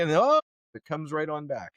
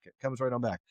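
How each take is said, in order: First: "comes right on back" said with rising surprise; "comes right on back" said in mock amazement; stress on back. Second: Said in the usual way. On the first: Shown as a demonstration.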